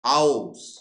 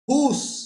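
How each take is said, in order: First: The vowel glides as an ow diphthong. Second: The vowel is a single long oo sound. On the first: This is the present-day form of the word. "এখন কি উচ্চারণ হয় গো?" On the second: This is the older form of the word. "Middle ইংলিশে হুস উচ্চারণ হতো"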